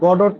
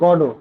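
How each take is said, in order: First: The name ends with a t sound. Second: The name ends on a vowel. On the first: The speaker calls it wrong. "Waiting for the গডট না" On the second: The speaker calls it right. "এইটার উচ্চারণ হচ্ছে গডো"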